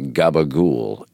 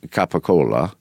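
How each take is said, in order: First: It is said the Italian-American way. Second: It is said the standard Italian way.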